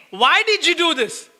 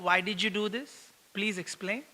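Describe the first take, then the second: First: Exasperated reproach; complaining. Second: Said in the usual way. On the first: Shown as a demonstration. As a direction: throw it as a complaint, not a question. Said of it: "We are complaining". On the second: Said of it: "are we asking the child".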